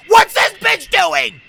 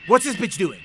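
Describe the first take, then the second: First: Loud, high, slow yell; alarmed shout. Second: Said in the usual way. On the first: Real, not acted. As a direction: yell the question, stretching every word. Same question repeated as a shout.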